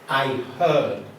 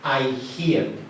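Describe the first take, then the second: First: The vowel in heard sounds like in her. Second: The vowel in heard sounds like in hear. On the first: The speaker calls it right. "Notice the change in pronunciation" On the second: The speaker calls it wrong. "We do not say"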